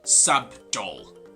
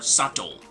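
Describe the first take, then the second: First: A b sound is heard in the middle. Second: No b sound is heard in the middle. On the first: The speaker calls it wrong. "not subtle with the letter B" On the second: The speaker calls it right. "but rather subtle or subtle, omitting the letter B"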